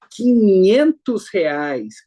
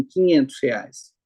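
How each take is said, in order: First: Loud, stretched-out showman's enthusiasm; slow, rousing game-show announcement; Silvio Santos. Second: Said in the usual way. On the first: Retold or imitated. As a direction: draw out "quinhentos reais" with booming excitement. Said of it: "com empolgação, entusiasmo". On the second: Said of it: "Silvio Santos não fala assim".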